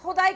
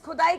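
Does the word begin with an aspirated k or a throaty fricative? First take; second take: fricative; aspirated k. First: It begins with a throaty fricative kh sound. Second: It begins with a plain aspirated k sound. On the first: It means godliness, from the word for God. "उस खुदाई की बात कर रहे हैं" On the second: It means digging or excavation. "इस खुदाई की नहीं जो हो भी नहीं रही है"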